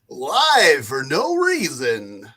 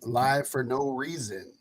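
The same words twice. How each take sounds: First: It is said in a put-on radio announcer voice. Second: It is said in the speaker's ordinary voice.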